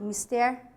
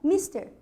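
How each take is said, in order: First: The stress is on the last syllable. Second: The stress is on the first syllable. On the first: The speaker calls it right. "algumas palavras são essencialmente oxítonas" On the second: The speaker calls it wrong. "e não mister"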